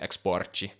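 The word is said with a Portuguese pronunciation. "I guess they would say exporte"

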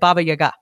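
The name is said with a native pronunciation. The speaker calls it right. "apparently you're supposed to say it Baba Yaga"

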